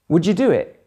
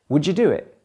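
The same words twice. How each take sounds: Both takes have the same delivery.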